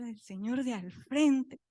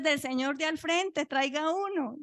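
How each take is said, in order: First: Slow, drawn-out disbelief; stretched-out echo at usual pitch; dismayed echo. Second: Higher-pitched order to fetch; brisk, raised-pitch request; retold calling out. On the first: Retold or imitated. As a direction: repeat it slowly, taken aback. Her dismayed echo of the order. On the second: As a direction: call it across the ward, lightly acted. Staff calling out for a diaper.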